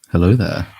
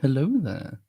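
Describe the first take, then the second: First: It is said in an ordinary, plain voice. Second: It is said in an exaggerated, camp voice.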